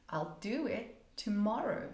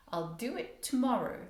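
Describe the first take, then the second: First: "I'll do it tomorrow" with do stressed. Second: "I'll do it tomorrow" with tomorrow stressed and falling. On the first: Teacher shows stress on "do" in the sentence. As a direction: rise on do, fall after. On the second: Teacher shows stress on "tomorrow" in the sentence. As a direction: land on tomorrow. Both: Shown as a demonstration. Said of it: "There's a rise and a fall".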